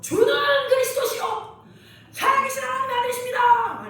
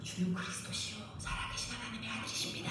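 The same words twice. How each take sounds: First: It is said loudly, like a bold shout. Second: It is said quietly, close to a whisper.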